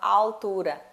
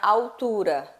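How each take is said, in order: First: The L is said as a clear L. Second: The L is said like a U vowel. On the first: This is how some other regions say it. "pronuncia-se o L com o som do L mesmo" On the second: This is how her own region says it. "na minha região a gente pronuncia o L com o som do U"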